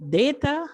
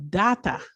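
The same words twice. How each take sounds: First: "data" said DAY-tuh, ending on a rise; "data" as DAY-tuh, pitched up; American-style pronunciation. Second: "data" said DAH-tuh, falling at the end; alternative regional pronunciation. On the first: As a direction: say "data" with a long "day" first vowel. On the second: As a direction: say "data" with an open "ah" first vowel. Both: Shown as a demonstration. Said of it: "depending on where you come from".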